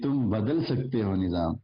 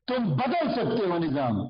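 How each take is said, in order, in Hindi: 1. इसे सपाट ढंग से बोला गया है, बिना जोश या जान के। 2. इसे जोशीले, प्रेरित करने वाले विश्वास के साथ बोला गया है। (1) "तो कुछ बचा इस जुमले के पल्ले, खत्म हो गया।" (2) "एक ये था"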